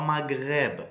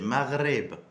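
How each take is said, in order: First: The gh is said as a hard g. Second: The gh is said like a French r. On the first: The speaker calls it wrong. "C'est pas Maghreb" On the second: The speaker calls it right. "c'est Maghreb"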